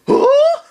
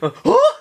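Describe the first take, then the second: First: Very high, loud squeak of huh; high loud confused yelp; baffled huh. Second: High huh through a laugh; high laughing repeat of huh. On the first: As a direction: Bolin caught off guard. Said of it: "Bolin's was like". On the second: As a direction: giggle while imitating him. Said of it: "He had that". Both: Retold or imitated.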